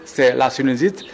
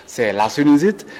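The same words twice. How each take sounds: The two takes are said the same way.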